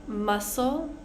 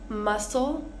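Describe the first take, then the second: Both takes have the same delivery.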